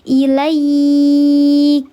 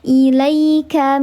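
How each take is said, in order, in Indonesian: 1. Bunyi 'ai' dibaca panjang. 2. Bunyi 'ai' dibaca pendek dan lembut. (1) "nih kalau ayah bunda wakafkan di sini, maka dibacanya panjang" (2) "Kalau harfulin di tengah kalimat namanya harfulin, dilembutkan saja"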